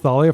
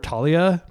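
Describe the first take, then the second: First: The name begins with a TH sound. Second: The name begins with a plain T sound. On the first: The speaker calls it right. "it is pronounced Thalia ... you actually pronounce the the H" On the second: The speaker calls it wrong. "called her Talia because that's like a common name"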